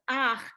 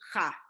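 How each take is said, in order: First: The vowel comes before the final throaty consonant. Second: The vowel comes after the final throaty consonant. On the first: The speaker calls it right. "the vowel comes first, so it's ach" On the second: The speaker calls it wrong. "as opposed to cha"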